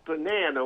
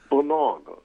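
First: It is said with an American accent. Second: It is said with a British accent. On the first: The speaker calls it wrong. "When you don't say banana" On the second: The speaker calls it right. "That's how they would pronounce banana"

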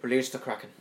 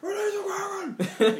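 First: It is said lazily and flatly. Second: It is screamed out loud.

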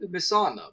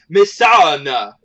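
First: The name is said plainly at normal length. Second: The name is stretched out with extra syllables. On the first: "She started off normal" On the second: "she almost feels like she adds two extra syllables"

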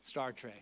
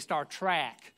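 First: It is said in a standard American accent. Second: It is said in a Southern US accent.

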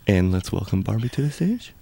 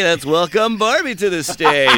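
First: It is said in a plain, low-key voice. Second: It is said in a hyped strip club DJ voice.

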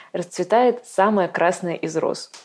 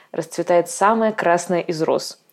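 The two takes are said the same way.

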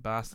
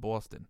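First: It is said in a Boston accent. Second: It is said in a New York accent.

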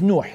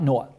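First: The name is said with its Arabic pronunciation. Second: The name is said with its English pronunciation. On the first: This is the name's proper original form. The speaker calls it right. "But his name is Noah" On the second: This is the form used in English. The speaker calls it wrong. "not Noah"

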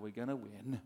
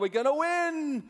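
First: It is said quietly, without much energy. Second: It is said loudly, with a raised voice.

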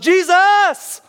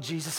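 First: The name is shouted loudly and desperately. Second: The name is said quietly and softly. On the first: The cry was desperate and urgent. The speaker calls it right. "He's here and he yells" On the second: The cry was timid and restrained. The speaker calls it wrong. "I don't believe that this was a quiet"

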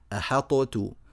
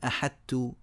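First: The ṭā is fully pronounced with an echoing bounce. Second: The ṭā disappears completely into a plain t. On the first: "يظهرون هذه الطاء إظهارا مطلقا فيجعلونها مقلقلة" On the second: "يدخلون الطاء في التاء فتزول بالكلية وتتحول إلى تاء خالصة"

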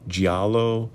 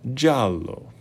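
First: The 'gi' is said apart from the 'a'. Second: The 'gi' glides straight into the 'a'. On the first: The speaker calls it wrong. "all these weird, like, pronunciations" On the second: The speaker calls it right. "the true pronunciation is giallo"

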